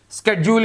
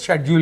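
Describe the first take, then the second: First: It is said with an American pronunciation. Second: It is said with a British pronunciation. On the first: "in uh, U S A" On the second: "in British"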